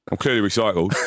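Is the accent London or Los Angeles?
London. It is said in a London accent.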